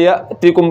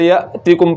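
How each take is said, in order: First: The vowel after the t is short. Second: The vowel after the t is short.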